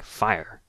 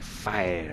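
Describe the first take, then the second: First: It sounds exactly like the word fire. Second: It sounds different from the word fire. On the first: "pronounced the same as the flame" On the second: "maybe it's different"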